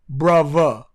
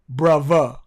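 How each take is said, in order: Both takes have the same delivery.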